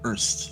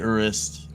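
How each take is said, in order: First: The name is squeezed into one syllable. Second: The name is said with two syllables. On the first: "It's like one syllable almost" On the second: "you can say Urist"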